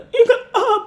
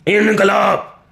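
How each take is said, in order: First: The shout uses a plain, straight voice. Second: The shout uses a voice pushed back in throat.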